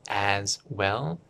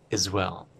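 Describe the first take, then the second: First: The two words are said separately and fully. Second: The two words are run together, very short. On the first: "Instead of as well" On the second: "it's very short"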